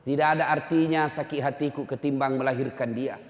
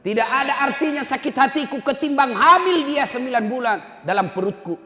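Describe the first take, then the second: First: Said in the usual way. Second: High, loud impassioned plea; mother's shout. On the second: Acted. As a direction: cry it out forcefully, easing at the end. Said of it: "ibunya berteriak". (jeritan ibu penuh emosi)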